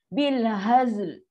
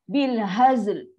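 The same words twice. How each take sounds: The two takes are said the same way.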